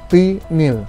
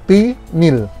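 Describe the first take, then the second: No difference in how they are said.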